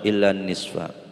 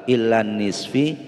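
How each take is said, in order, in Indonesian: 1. Kata terakhir diakhiri vokal a. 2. Kata terakhir diakhiri vokal i. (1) "Harus dibaca nasab"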